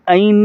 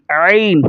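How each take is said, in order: First: "عین" softened to a plain vowel "ain"; wrong ain. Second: Corrected "عین" with a pressed throat start; forceful ain. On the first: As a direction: say "عین" with no throat pressure. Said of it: "عین نہیں". ("عین" بغیر زور کے، غلط تلفظ) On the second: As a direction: press hard into the first sound of "عین". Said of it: "زور دے کر پڑھیں گے". ("عین" زور دے کر، درست تلفظ) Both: Shown as a demonstration.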